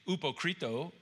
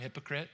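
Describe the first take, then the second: First: It is pronounced the Greek way, ending in a vowel. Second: It is pronounced the Americanized English way. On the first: "that's a Greek word" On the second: "we just pronounce it a little bit slangy, you know, a little Americanized"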